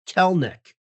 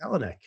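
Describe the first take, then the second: First: The name is said with two syllables. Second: The name is said with three syllables. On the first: The speaker calls it right. "I will make sure that I remember it is Kelnick" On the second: The speaker calls it wrong. "maybe I've heard him say Kelenic"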